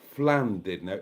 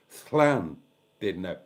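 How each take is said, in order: First: The name begins with an F sound. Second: The name begins with an SL sound. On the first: The speaker calls it wrong. "It's not Flan did know" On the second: The speaker calls it right. "It's Slan did know. Not F, Sl"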